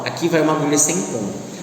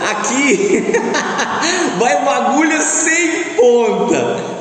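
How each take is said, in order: First: It is spoken in a plain, normal voice. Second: It is spoken while laughing heartily. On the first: "a primeira vez a gente passa falando normal" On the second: "eu posso falar gargalhando"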